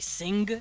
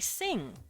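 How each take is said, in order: First: A hard g is sounded after the ng. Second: It ends on ng with no hard g. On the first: The speaker calls it wrong. "You don't really pronounce the G, you don't say sing, because it sounds stupid" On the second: The speaker calls it right. "You say sing"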